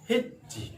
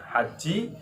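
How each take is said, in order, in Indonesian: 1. Vokal pertama adalah i tertutup. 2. Vokal pertama adalah a terbuka. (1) "bisa dibaca hiji" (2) "Bisa dibaca haji"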